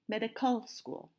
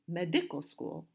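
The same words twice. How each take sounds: First: The stress is on the third syllable. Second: The stress is on the second syllable. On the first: "And we don't say medical school" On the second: "We don't say medical school"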